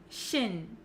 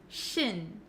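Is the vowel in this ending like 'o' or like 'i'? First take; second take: i; i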